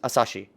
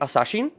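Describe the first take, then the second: First: The word ends in a vowel, with no N. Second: The word ends with a clear N sound. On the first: This is how the show says it. "That's how they say it in Japanese, I did not hear her say the N" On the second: This is what the speaker expected to hear. "I was thinking it would be Asashin"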